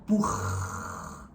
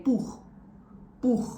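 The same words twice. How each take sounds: First: "buch" con il ch allungato e sibilato troppo a lungo; overlong hissing ch. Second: "buch" con il ch finale breve e secco; short ch. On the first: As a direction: trascina il ch finale di "buch" come un lungo sibilo. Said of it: "That's not how we pronounce it". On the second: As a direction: chiudi il ch di "buch" in un attimo. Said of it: "It's really short". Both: Shown as a demonstration.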